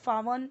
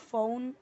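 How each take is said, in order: First: It is said as two syllables, faa-wan. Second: It is said with an ow diphthong. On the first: "फावन या फाउन नहीं पढ़ना है" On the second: "फावन या फाउन नहीं पढ़ना है"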